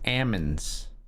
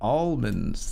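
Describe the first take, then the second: First: The L sound is left out completely. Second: The L sound is clearly pronounced. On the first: The speaker calls it wrong. "she just doesn't pronounce the L at all" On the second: The speaker calls it right. "what are you talking about? It's almonds"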